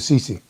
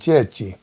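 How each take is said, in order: First: The name is said with a changed, anglicized pronunciation. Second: The name is said with its original Italian pronunciation. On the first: This pronunciation was imposed on immigrants. "they made them change the pronunciation of their name from Cecchi to Cece" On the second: This is the family's original pronunciation. "your Italian family pronounced the name Cecchi"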